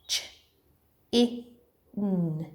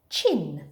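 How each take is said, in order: First: "Ch, I, N" as three separate sounds; sounded out. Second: Said in the usual way. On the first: Shown as a demonstration. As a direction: leave a pause after each sound of "Ch, I, N". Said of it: "I'll point to the sound buttons". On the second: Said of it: "you read it".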